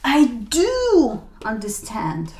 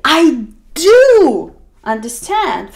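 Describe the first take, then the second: First: "do" whispered slowly; whispered insistence. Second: "do" pushed slow and loud to insist; emphatic do. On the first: Speaker whispering to someone who doubts them. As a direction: whisper it, still leaning on "do". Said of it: "and you say". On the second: Speaker insisting to someone who doubts them. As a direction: insist you understand, hitting "do". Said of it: "you will say". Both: Shown as a demonstration.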